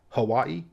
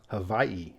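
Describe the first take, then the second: First: It is said staccato with a W sound. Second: It is said with a V sound. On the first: "a little more staccato" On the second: "with a W having a V sound"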